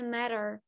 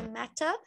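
First: Matter com t batido como r; American flapped t. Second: Matter com t claro e marcado; British t. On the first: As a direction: matter dito mérer. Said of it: "no americano é matter". (t americano vira r) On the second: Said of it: "Principalmente no britânico". (t pronunciado como t) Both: Shown as a demonstration.

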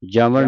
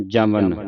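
First: "ਜਮਨ" ended on the retroflex ਣ; wrong final nasal. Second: "ਜਮਨ" ended on a clear dental ਨ; dental n ending. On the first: Teacher showing congregations' mistake, "ਜਮਨ" with retroflex ਣ. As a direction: say "ਜਮਨ" with a curled-tongue ਣ in place of ਨ. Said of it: "ਜਮਨ ਨਹੀਂ ਪੜ੍ਹਨਾ". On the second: Teacher modelling for students, "ਜਮਨ" with clear dental ਨ. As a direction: say "ਜਮਨ" with tongue on the teeth for ਨ. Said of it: "ਇੱਥੇ ਲੱਗਾ ਹੈ ਨੰਨਾ". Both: Shown as a demonstration.

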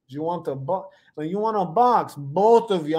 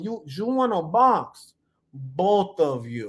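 First: Lightly put-on Russian accent; half-committed Russian accent; attempted Russian accent. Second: Slow, put-on Italian accent; Italian accent attempt, stretching each word. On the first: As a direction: try a rough mock Russian accent, halting at first. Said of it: "said it with a Russian accent". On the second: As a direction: try a drawn-out mock Italian accent. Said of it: "say it in an Italian accent".

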